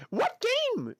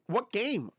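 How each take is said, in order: First: High, excited ask; eager question. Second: Said in the usual way. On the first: Real, not acted. Streamer eagerly asking chat which game, excited. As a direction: perk right up and ask.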